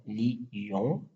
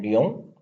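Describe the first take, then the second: First: "lion" split into two syllables, li-on; diaeresis on lion. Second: "lion" in one syllable, lyon; synaeresis on lion. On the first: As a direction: stretch "lion" out slowly as two separate vowels, li-on. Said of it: "ce qu'on appelle la diérèse". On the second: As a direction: glide the i quickly into the on of "lion". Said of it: "deux voyelles prononcées en une seule syllabe". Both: Shown as a demonstration.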